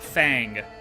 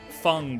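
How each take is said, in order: First: The vowel sounds like the 'a' in fang. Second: The vowel sounds like the 'u' in fungi. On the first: The speaker calls it wrong. "Not Fang. No A" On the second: The speaker calls it right. "Like fungi, but just no I"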